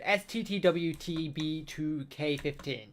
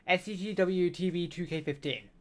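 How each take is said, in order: First: It is said slowly. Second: It is said fast.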